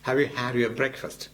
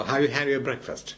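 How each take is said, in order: The two takes are said the same way.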